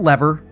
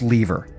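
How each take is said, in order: First: It is said with an American pronunciation. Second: It is said with a Canadian pronunciation. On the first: The speaker calls it wrong. "It's not lever" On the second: The speaker calls it right. "Speak it the proper Canadian way"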